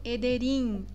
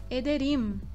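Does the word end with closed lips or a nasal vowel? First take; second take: nasal vowel; closed lips. First: It ends in a nasal vowel without closing lips. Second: It ends with a clear m, lips closed. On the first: The speaker calls it wrong. "eu não falo ederim" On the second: The speaker calls it right. "juntando os lábios"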